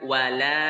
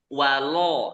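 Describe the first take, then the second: First: The l syllable sounds thin and open. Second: The l syllable sounds thick and rounded. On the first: The speaker calls it right. "dibaca tipis" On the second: The speaker calls it wrong. "jangan dibaca tebal, jangan walo walo ini salah"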